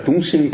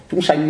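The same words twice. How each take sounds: First: Chúng sinh with a plain "inh" vowel, said in passing; the monk tells listeners chúng sinh is taken as wrong, said plainly. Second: Chúng sanh with an open southern "anh" vowel, pitched higher; mock the insistence on Chúng sanh, voice raised. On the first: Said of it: "chúng sinh là sai gì phải không". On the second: The monk mimics southerners insisting on Chúng sanh, raised pitch. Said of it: "Chúng sanh mới đúng chứ". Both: Shown as a demonstration.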